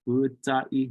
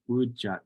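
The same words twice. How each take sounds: First: The middle consonant is a t sound. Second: The middle consonant is a ch sound. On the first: "with that T sound" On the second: "they definitely pronounce it with that C H sound"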